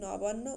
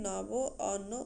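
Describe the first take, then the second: First: It is said as one joined word. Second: It is said as two separate words. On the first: The speaker calls it right. "একসঙ্গে নবান্ন উচ্চারণ অনেক বেশি শ্রুতিমধুর" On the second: The speaker calls it wrong. "আলাদাভাবে নব অন্য উচ্চারণের"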